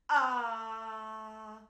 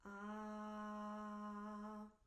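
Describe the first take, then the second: First: The vowel starts with a harsh, sudden glottal burst. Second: The vowel starts cleanly, neither breathy nor harsh. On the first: The speaker calls it wrong. "a really harsh ah" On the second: The speaker calls it right. "find something in the middle"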